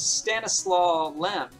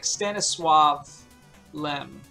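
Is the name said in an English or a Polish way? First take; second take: English; Polish. First: The name is said with English sounds. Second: The name is said with Polish sounds. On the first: "whose name in English is" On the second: "but it's more like"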